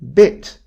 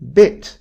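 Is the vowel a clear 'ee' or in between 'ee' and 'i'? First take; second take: in between; in between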